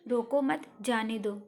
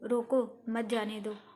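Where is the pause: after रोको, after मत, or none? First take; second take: none; after रोको. First: It is said without any clear pause. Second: There is a pause right after रोको. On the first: The meaning is unclear. "पहले वाक्य में इस पर अर्थ स्पष्ट नहीं हो रहा है" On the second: Stop him, do not let him go. "दूसरे वाक्य में विराम चिन्ह का प्रयोग होने से अर्थ प्रकट हो रहा है कि उसको रोको"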